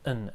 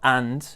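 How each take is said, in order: First: The word is reduced to a short un sound. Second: The word is said fully with a clear d. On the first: The speaker calls it right. "it's going to be an un sound" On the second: The speaker calls it wrong. "not and"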